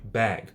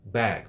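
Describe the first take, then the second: Both takes have the same delivery.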